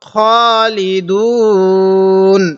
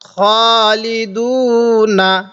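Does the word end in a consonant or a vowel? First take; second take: consonant; vowel. First: The word ends on the consonant n. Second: The word ends with a vowel after the n. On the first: The reader stops at this word. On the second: The reading continues without a stop.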